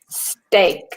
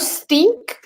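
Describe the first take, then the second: First: The vowel sounds like the letter A. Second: The vowel does not sound like letter A. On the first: The speaker calls it right. "It needs to sound like there is the letter A" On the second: The speaker calls it wrong. "So no steak"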